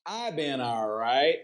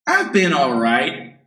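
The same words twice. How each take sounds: First: Softly. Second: Said in the usual way. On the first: Shown as a demonstration. Teacher drilling a greeting reply, said softly. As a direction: say it again much softer. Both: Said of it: "teacher drills the reply".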